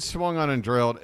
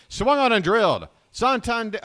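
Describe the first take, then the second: First: Said in the usual way. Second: High, loud burst of play-by-play excitement; real excitement. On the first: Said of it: "I said swung on and drilled". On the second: Real, not acted. Calling Santander's swing too soon, real excited shout. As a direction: shout the call as if it's a home run. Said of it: "unnecessary excitement".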